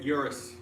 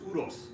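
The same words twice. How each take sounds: First: It is said with an Americanized pronunciation. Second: It is said with a non-American pronunciation. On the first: This is how Americans casually say the name. The speaker calls it wrong. "as lazy Americans, we say it Urus" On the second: This is how the name is properly said. The speaker calls it right. "the correct pronunciation of the car is Urus"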